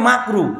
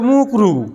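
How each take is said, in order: First: The first vowel sounds like 'a'. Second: The first vowel sounds like 'u'. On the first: The speaker calls it right. "শব্দ হচ্ছে মাকরু" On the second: The speaker calls it wrong. "ঠিক করে শব্দটাও বলে না"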